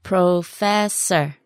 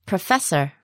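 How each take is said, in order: First: "Professor" drawn out syllable by syllable; slow word model. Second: Said in the usual way. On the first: Shown as a demonstration. Teacher modelling "Professor" for learners, very slowly. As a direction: stretch each syllable of "Professor".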